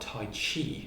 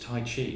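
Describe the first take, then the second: First: The second syllable starts with a ch sound. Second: The second syllable starts with a soft j sound. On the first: The speaker calls it wrong. "not Tai Chi. It doesn't have anything to do with Chi" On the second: The speaker calls it right. "Tai Chi is Tai Chi"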